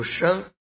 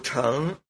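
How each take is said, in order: First: It is read as shèng. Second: It is read as chéng. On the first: It is a noun meaning a vehicle. "当名字来讲读圣" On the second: It is a verb meaning to ride. "当动词来讲读成"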